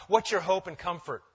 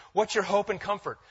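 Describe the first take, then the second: No difference in how they are said.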